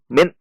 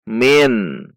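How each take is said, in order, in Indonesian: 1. Suku katanya disentak keluar secara tiba-tiba dan kuat. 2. Suku katanya pendek dan lancar, dengan N yang jelas. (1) "tidak boleh dihentak seperti contoh" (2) "nun sukun dibaca izhar atau jelas"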